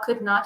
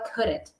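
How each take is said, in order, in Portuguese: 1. Isso é dito como duas palavras completas separadas. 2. Isso é dito como uma palavra contraída. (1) "ao invés de eu falar could not" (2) "eu também posso falar couldn't"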